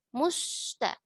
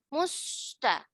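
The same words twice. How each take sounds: No difference in how they are said.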